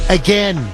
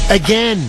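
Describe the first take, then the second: No difference in how they are said.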